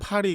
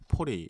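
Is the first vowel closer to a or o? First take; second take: a; o. First: The first vowel is an open a sound. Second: The first vowel is a rounded o-like sound. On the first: "파리 같은 것도" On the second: "포리 이렇게 말"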